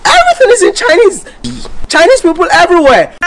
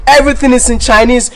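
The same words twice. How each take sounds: First: Much higher and faster, in disbelief; a pitched-up exasperated repeat; exasperated outburst. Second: Said in the usual way. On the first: Real, not acted. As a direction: fire it off high, fed up. Repeats the complaint, pitch jumps.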